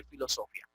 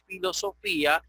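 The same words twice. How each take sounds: First: Filosofía as filo-SO-fya, low and soft; diphthong reading. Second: Filosofía as filo-so-FÍ-a; broken diphthong. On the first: Teacher giving the reading to avoid, low filo-SO-fya. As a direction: stress SO and glide the ia of filosofía. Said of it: "no como diríamos siempre". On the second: Teacher showing the required reading, filo-so-FÍ-a. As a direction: stress FÍ, ia in two syllables in filosofía. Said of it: "tenemos que decir filosofía". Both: Shown as a demonstration.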